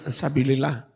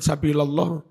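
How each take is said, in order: First: The vowel before -llah is i. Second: The vowel before -llah is a. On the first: This is the form people always use. "enggak peduli rafa nasab ya sabilillah" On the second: This marks the word as an object. "maf'ul kan nasab pasti"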